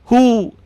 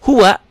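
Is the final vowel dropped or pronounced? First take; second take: dropped; pronounced. First: The word is cut short without the final vowel. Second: The word ends with a full final vowel. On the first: The reading stops on the word. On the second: The reading continues past the word.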